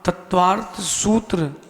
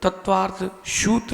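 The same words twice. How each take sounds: First: The s in sutra is a dental s. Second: The s in sutra is not dental. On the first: The speaker calls it right. "आप बोलना तत्वार्थ सूत्र ... यहां पर दंती सा है" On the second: The speaker calls it wrong. "तत्वार्थ सूत्र नहीं"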